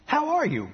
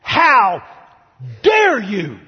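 First: Softer, higher, gentle hello; friendly greeting. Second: Loud, indignant rebuke with a wagging finger; scolding. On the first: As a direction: greet him kindly, disarmingly. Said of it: "Jesus said". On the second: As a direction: scold him sharply, full of outrage. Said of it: "shake his finger, and say". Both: Pretend.

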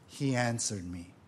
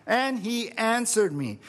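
First: Lower, softer, after a pause; hushed reveal. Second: Higher, emphatic scripture quote; delighted repeat. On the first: Preacher revealing God's answer to the congregation, hushed. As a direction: drop low and soft for the answer. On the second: Preacher relishing the verse for the congregation, delighted. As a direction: lift the pitch and relish the line. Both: Acted.

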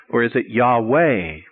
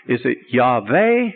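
First: "Yahweh" said as "Yah-WAY", drawn out; W pronunciation. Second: "Yahweh" said as "Yah-VAY", slow and questioning; V pronunciation. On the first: Students asking teacher which name is right, W sound. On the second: Students asking teacher which name is right, V sound. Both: Acted. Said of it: "how should we pronounce it".

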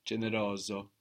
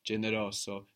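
First: Generoso with a buzzing Z, generozo; with a Z sound. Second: Generoso with a crisp S between the vowels; Generoso, S as in sun; with an S sound. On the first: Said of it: "or more like a Z". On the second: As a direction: say Generoso with a hissed S. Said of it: "might sound more like an S". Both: Shown as a demonstration.

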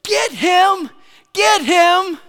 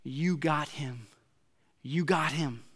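First: Much higher, loud shouting fan; crowd yell. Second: Softer, slow, assured fan voice; calm confident cheer. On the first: Football fans yelling at the safety to tackle, loud shout. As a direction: bellow it from the bleachers. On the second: Other half of the crowd calmly sure, softer confident call. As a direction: say it like you know he's got it. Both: Retold or imitated. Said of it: "half the crowd would be yelling".

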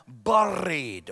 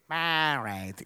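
First: "Buried," low, with a strongly rolled R; full Scottish pronunciation. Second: "Buried," in a low mock-English accent; English pronunciation. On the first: Shown as a demonstration. Preacher models the word for everyone to repeat, "Buried," with rolled Scottish R. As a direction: say "Buried," in full Scottish glory, burr-eed. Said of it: "let me say it in its full glory". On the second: A Scottish preacher imitates how English people say it, mock English accent. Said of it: "I know that English people say".

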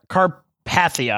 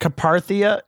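First: "Carpathia" as car-PATH-ee-uh, slowly; careful second attempt. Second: "Carpathia" as kuh-PAR-thee-uh; tentative pronunciation. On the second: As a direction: say "Carpathia" with the R in the stressed second syllable. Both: Real, not acted. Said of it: "I could be saying that wrong".

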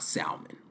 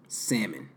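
First: "salmon" said "SAL-mun", L pronounced, under the breath; L sounded in salmon. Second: "salmon" said "SAM-un", L left silent. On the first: Showing himself the wrong way, "salmon" with sounded L. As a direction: whisper "salmon" with an audible L. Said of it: "not salmon". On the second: Correcting himself after a near slip, "salmon" with silent L. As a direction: say "salmon" without any L sound. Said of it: "I almost told him it was salmon". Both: Shown as a demonstration.

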